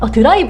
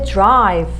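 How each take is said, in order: First: It is said with Korean loanword syllables. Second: It is said as one English syllable. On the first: The speaker calls it wrong. "드라이브 가야지 하지 마시고" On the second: The speaker calls it right. "나 이제 drive 가야겠다 이렇게 생각해 주시면"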